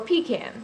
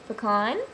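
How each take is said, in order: First: It is said the New York way. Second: It is said the speaker's non-New York way.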